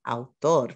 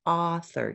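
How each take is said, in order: First: "Autor" said in Spanish, stressed on the last syllable; Spanish model of "Autor"; Spanish pronunciation. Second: "Author" said in English, stressed on the first syllable; English model of "Author"; English pronunciation. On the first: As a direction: say "Autor" as au-TOR, with a plain t. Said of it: "the Spanish word for that". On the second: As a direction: say "Author" with an English th and falling end. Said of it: "say that word in English". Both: Shown as a demonstration.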